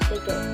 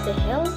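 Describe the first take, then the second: First: The middle consonant sounds like a g. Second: The middle consonant sounds like an h. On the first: The speaker calls it right. "lafal yang benar" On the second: The speaker calls it wrong. "lafal yang salah"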